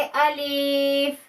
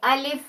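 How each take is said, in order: First: अलिफ stretched very slowly, the wrong way; wrong drawn-out alif. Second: अलिफ said short and quick, not stretched; quick alif. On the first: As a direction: drag out अलिफ long and slow as a mistake. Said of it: "अलिफ को हम ऐसे नहीं पढ़ेंगे". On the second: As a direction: clip अलिफ quickly with no drawing out. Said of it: "जल्दी से अदा कर देंगे". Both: Shown as a demonstration.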